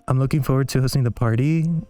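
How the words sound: The pitch rises at the end of the phrase. The statement sounds like a question. "In uptalk, this would be"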